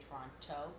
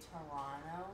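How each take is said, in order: First: Toronto with the second T sounded. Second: Toronto said as "Torono", second T dropped; Toronto without T. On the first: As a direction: say Toronto fully, "To-ron-to", T pronounced. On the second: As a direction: say Toronto the local way, silent second T. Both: Shown as a demonstration. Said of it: "You can't say the T".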